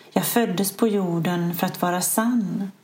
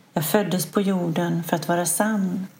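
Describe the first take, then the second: No difference in how they are said.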